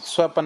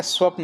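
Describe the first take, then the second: First: स्वपन with a vowel between 'p' and 'n'; wrong form. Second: स्वप्न with 'p' and 'n' joined; correct cluster. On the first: Teacher rejecting the error, स्वपन as swa-pan. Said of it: "नहीं होता". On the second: Teacher giving the right word, स्वप्न as swapn. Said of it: "होता है". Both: Shown as a demonstration.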